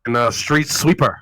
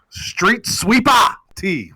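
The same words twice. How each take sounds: First: Said in the usual way. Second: Stretched out, higher, like a ring announcer; hype introduction. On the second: Real, not acted. Host hyping a co-host's name, announcer style. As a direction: drag the name out slow and big.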